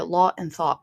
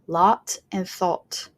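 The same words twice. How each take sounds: First: It is said in a Scottish accent. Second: It is said in a British RP accent. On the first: "Scottish speakers are going to say lot and thought" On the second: "British modern R P speakers are going to say lot and thought"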